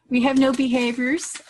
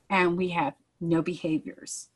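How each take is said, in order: First: "no" lifted, louder and higher with a rising end; joyful emphasis on "no behaviors"; emphatic repeat. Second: Said in the usual way. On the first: Real, not acted. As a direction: repeat it proudly, leaning on "no".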